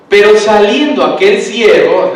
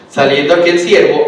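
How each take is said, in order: First: Pero saliendo aquel siervo, loud with weight on saliendo; stress on pero. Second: Said in the usual way. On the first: Shown as a demonstration. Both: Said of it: "el famoso pero".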